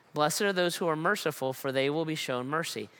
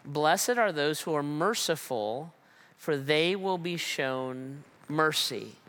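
First: Said in the usual way. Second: Slow, reverent reading of Blessed are those who are merciful; hushed reverence; slow solemn quote. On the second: Acted. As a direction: lean in gently, as if reading scripture. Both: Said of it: "this is the way he says it".

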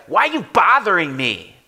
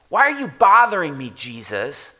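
First: Loud, higher annoyed yell; demon yelling. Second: Demon yelling. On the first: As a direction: snap it at Jesus like a cornered demon. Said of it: "we may say, say something like this". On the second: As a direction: throw it at Jesus, then name him. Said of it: "this thing's yelling at Jesus". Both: Retold or imitated.

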